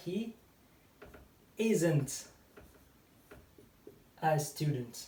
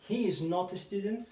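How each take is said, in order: First: Isn't said as one short contracted word. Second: Said in the usual way. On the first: Shown as a demonstration. A teacher models the contracted isn't for Persian students. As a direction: squeeze "is not" into "isn't" in one beat.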